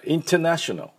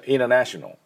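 First: British accent, with the t clearly pronounced. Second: American accent, with the t softened. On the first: "イギリス式だったら" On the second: "アメリカ式はInternational になります"

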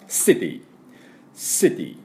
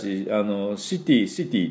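First: The word begins with an 's' sound. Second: The word begins with a 'sh' sound. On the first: The speaker calls it right. "じゃなくて実際はシティ、この音なんです" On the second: The speaker calls it wrong. "私たちシティと言いますけども"

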